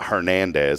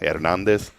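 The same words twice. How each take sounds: First: The name begins with an audible H sound. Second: The name begins like the word air, no H. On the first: The speaker calls it wrong. "not Hernandez" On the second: The speaker calls it right. "like Air Nikes, like Air Max"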